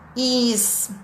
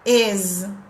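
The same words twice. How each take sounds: First: The word ends with a hissing s sound. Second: The word ends with a buzzing z sound. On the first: The speaker calls it wrong. "as pessoas normalmente pronunciam is, is, is, com I e com S" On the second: The speaker calls it right. "É o E com circunflexo e Z"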